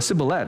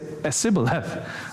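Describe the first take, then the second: First: The word begins with a plain 's' sound. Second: The word begins with an 'es' sound. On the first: "Or a sibboleth" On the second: "the Spanish speaker might say esibboleth"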